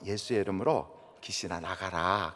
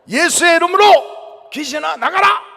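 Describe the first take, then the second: First: It is said quietly and gently. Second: It is said loudly and forcefully.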